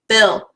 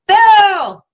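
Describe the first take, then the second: First: It is said in a normal speaking voice. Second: It is said in a squeaky cartoon voice.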